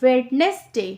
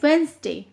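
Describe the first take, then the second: First: Every written letter, including the d, is sounded. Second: The d is silent and the word is shortened. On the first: "यहाँ देखिए लिखा हुआ है" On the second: "डी silent है तो हम पढ़ेंगे"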